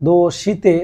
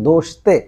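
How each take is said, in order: First: The vowel after sh is clearly pronounced. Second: The vowel after sh is dropped. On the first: The speaker calls it wrong. "দোষিতে না বলে" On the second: The speaker calls it right. "বলবেন দোষতে"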